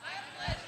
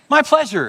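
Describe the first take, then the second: First: A barely there whispered my pleasure; shy server whispering before being asked for louder. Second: Higher, clearly louder My pleasure. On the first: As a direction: whisper it shyly under your breath. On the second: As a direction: say it out loud so they hear. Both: Retold or imitated.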